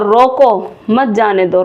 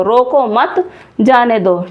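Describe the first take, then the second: First: रोको, then a break before मत जाने दो; pause after रोको. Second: रोको मत joined, then a break before जाने दो; pause after मत. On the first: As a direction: say रोको slowly, stop, then run मत जाने दो together. (रोको के बाद विराम) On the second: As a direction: hold off जाने दो until after a stop on मत. (मत के बाद विराम) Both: Shown as a demonstration. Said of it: "चिन्ह को अगर हम आगे पीछे कर देते हैं".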